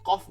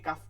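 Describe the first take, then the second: First: The vowel is said like an 'o'. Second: The vowel is said like an open 'a'. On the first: The speaker calls it wrong. "কাফকে কফ বানাই ফেলাই, এটা আমাদের ভুল।" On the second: The speaker calls it right. "কাফকে কাফ করলেই হবে"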